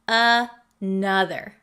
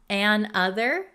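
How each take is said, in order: First: It is said smoothly as one unit. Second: It is split, with a break after 'an'. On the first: "It becomes one word" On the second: "An other is broken up"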